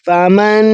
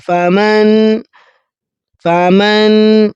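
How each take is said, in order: First: فمن with the نون said plainly; wrong reading. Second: فمن slow, the نون hidden in the nose; nasal hidden نون in فمن; ikhfa. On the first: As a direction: clear نون in فمن, the mistake. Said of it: "فمن نہیں پڑھا". (غلط: فمن) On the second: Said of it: "اس پر بھی ہم اخفا کریں گے". (فمن میں اخفا) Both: Shown as a demonstration.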